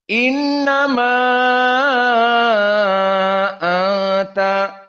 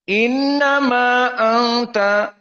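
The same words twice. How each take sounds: First: The final vowel of innama is drawn out long. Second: The final vowel of innama is held only briefly. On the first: "dibaca dengan isba" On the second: "dibaca dengan dua harokat"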